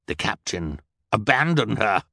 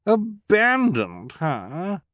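First: Said in the usual way. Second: "Abandoned" much higher, slow, rising in disbelief; high, drawn-out "Abandoned her?"; shocked repeat. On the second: A narrator's reading. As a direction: echo "Abandoned" in delighted shock. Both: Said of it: "Esme repeated".

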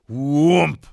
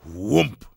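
First: Booming, much louder landing thud; harder thump. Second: Hollow imitated landing thud; heavy thump. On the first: Hare jumps again, harder, booming thump. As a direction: hit the impact hard and loud. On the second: Narrator voices the hare's first jump, solid thump. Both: A narrator's reading.

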